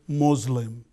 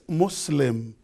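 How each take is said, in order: First: The middle consonant is a Z sound. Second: The middle consonant is an S sound. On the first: The speaker calls it wrong. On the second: The speaker calls it right.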